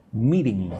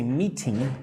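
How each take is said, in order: First: "meeting" with the T softened almost to a D; soft T. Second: "meeting" with a crisp, hard T. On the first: Teacher modelling natural speech for students, soft T in "meeting". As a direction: let the T in "meeting" go soft, like a quick D. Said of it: "Almost like meeting". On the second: Teacher showing students what not to say, crisp T in "meeting". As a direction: say "meeting" with the T fully sounded. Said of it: "I don't say meeting". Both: Shown as a demonstration.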